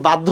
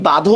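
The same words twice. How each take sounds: First: বাধ্য as "bad-dho", d then dh; doubled consonant. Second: বাধ্য as "ba-dho", without a doubled d; single consonant. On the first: Teacher testing students on his own pronunciation, doubled-consonant বাধ্য. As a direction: hold the d in বাধ্য, "baddho". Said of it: "নাকি বাধ্য উচ্চারণ করি". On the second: Teacher testing students on his own pronunciation, single-consonant বাধ্য. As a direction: open first syllable in বাধ্য, "badho". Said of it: "আমি কি বাধ্য উচ্চারণ করি". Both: Shown as a demonstration.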